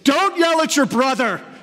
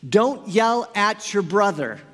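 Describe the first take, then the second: First: It is yelled in a loud voice. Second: It is said in a calm voice.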